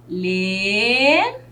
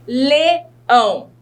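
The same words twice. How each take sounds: First: "Leão" in two drawn-out syllables, long gap between; split into syllables. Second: Said in the usual way. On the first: Shown as a demonstration. Teacher showing pupils the syllables, "Leão" slowly split. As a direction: stretch each syllable of "Leão", pausing after the first. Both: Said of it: "separar aqui em sílaba".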